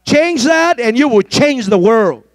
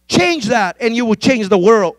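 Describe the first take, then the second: First: Change that and you will change the world, said slow and firm; preacher repeating for emphasis; slower, louder repeat. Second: Said in the usual way. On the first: Real, not acted. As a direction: drive the line home slowly. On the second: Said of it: "Oh, Jesus".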